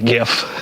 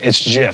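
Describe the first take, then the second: First: It begins with a hard G sound. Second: It begins with a soft J-like sound. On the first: This is the popular way to say it now. "I had to start saying it with a hard G" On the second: This is how the word sounds when reading it silently. "when I'm reading it, in my head, it's GIF"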